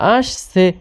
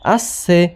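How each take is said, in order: First: The middle consonant is a soft 'sh' sound. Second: The middle consonant is a sharp 's' sound. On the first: The speaker calls it right. "হয়েছে" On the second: The speaker calls it wrong. "আবার স উচ্চারণ করছেন কেন"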